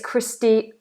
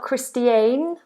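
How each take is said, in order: First: The last syllable has a weak schwa vowel. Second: The last syllable has a full, clear vowel. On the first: The speaker calls it right. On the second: The speaker calls it wrong. "this sound at the end is not Christiane"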